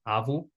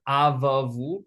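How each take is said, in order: First: The 'va' sound is said once. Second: The 'va' sound is said twice. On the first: The speaker calls it right. "we actually don't pronounce the first one. So it's still pronounced avu" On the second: The speaker calls it wrong. "it's written rather"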